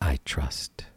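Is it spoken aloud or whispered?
aloud. It is spoken in a normal voice.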